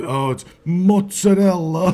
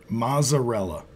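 First: Italian mozzarella clipped as moots-a-dell; Italian-American pronunciation. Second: Mozzarella said plain American, mot-suh-REL-uh; Americanized mozzarella. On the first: Retold or imitated. Italians correcting someone, Italian-American accent. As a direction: mozzarella with a tapped r and dropped vowel, Italian style. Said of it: "some Italians will get on you if you say".

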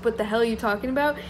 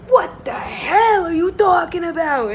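First: Said in the usual way. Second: Loud, high mock yell, hell hammed up; imitating Pauly yelling. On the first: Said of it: "when it says". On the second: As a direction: bellow it like a reality TV fight. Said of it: "he's, like, yelling at Angelina".

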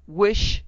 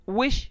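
First: A louder, higher repeat of the demand; louder repeated command; insistent cry. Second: A sudden loud, high cry; one urgent, forceful word; strong cry. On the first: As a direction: hammer the word home the second time. Wife repeats her demand, insisting. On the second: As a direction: bark the single word like a command. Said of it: "she cried in a strong voice". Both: A narrator's reading.

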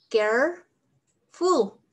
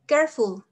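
First: "careful" drawn out slowly, syllable by syllable. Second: Said in the usual way. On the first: Shown as a demonstration. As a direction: stretch out "careful" slowly, like a model for students to repeat. ("careful" pronunciado muy despacio, sílaba por sílaba)

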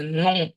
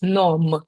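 First: «ном» with no n, just a nasal vowel; right nasal. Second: «ном» with a clearly pronounced final n; wrong, n pronounced. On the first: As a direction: let the vowel go into the nose. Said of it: "це буде". («ном» носовим звуком без н) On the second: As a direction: sound the n fully. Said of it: "не буде у нас". («ном» з чітким н) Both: Shown as a demonstration.

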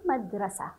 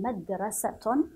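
First: مدرسة read as madrasah, no t; final ha sounded. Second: مدرسة read as madrasatun; final ta sounded. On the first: Teacher shows the second option, مدرسة ending in h. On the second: Teacher shows the first option, مدرسة ending in -tun. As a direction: end مدرسة with a voiced -tun. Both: Shown as a demonstration. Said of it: "تاء أو هاء".

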